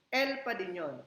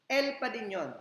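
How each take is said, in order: The two takes are said the same way.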